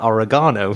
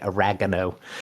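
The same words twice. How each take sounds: First: It is said in a British way. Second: It is said in an American way. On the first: This is how people in the UK say it. "in the U K we call it oregano" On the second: This is how the other person's country says it. "what you say oregano"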